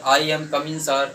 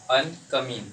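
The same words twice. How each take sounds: First: Slow "I am coming sir", I split into aa-ee; wrong pronunciation demo. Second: "I am" run together as one quick "aym"; natural pronunciation. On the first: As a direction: stretch the "I" into two vowels, spacing the words out. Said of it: "ऐसे बोलते हैं". ("I" को धीरे "आ-ई" खींचकर बोलें) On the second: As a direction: say "I am coming" with I as a single short glide. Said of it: "बोलते हैं ना". ("I am coming" में I को छोटा "आय" बोलकर) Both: Shown as a demonstration.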